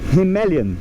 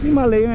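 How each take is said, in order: First: The stress is on the 'ma' syllable. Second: The stress is on the 'lay' syllable. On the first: It follows the local Indian pronunciation. "a sílaba tônica é o ma" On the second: It follows American pronunciation. "como um americano pronunciaria"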